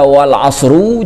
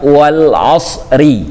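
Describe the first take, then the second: First: The last word ends in the vowel u. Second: The last word ends in the vowel i. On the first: The speaker calls it wrong. "tidak dibaca wal asru" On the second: The speaker calls it right. "dibacanya wal asri"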